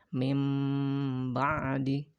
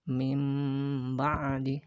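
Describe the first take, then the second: First: The first word ends in a held m sound. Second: The same.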